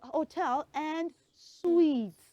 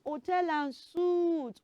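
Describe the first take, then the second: First: The last word sounds like 'sweet'. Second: The last word sounds like 'soot'. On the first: The speaker calls it right. "It is hotel and suites" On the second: The speaker calls it wrong. "It is not hotel and suit"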